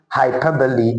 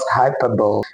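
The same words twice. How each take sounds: First: The final E is sounded as a vowel. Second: The final E is silent. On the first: The speaker calls it right. "The word is actually hyperbole" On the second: The speaker calls it wrong. "and not hyperbole"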